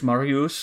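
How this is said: It is said with a French accent. "pronounce those in a kind of a mock French accent"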